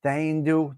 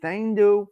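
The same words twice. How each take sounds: First: Said in the usual way. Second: Imitating how Octavia Grace said "Daindu", pitched a little higher; Octavia Grace's way. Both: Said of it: "That's how the lovely Octavia Grace used to say it".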